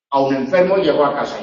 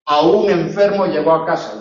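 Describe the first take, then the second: First: "A un" run lightly into "enfermo"; quicker, no beat on "un", weight on "enfermo"; unstressed "A un". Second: "A un" with UN stressed and raised. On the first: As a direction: glide through "A un" to land on ENFERMO. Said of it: "incluso enfermo". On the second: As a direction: lean on UN in "A un enfermo". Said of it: "significan cosas diferentes". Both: Shown as a demonstration.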